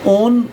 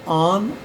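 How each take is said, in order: First: ऑन as "ohn", round O; rejected O reading. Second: ऑन as "aan", open aa; open AA reading. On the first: Teacher shows what not to say, ऑन with an O. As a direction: round the vowel of ऑन. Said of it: "ऑन नहीं बोलेंगे". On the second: Teacher gives students the taught reading, ऑन as aan. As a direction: open the vowel of ऑन to aa. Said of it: "word बोलेंगे". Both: Shown as a demonstration.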